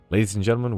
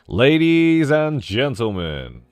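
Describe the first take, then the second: First: It is said like a calm airport announcer. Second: It is said like a showy circus ringleader.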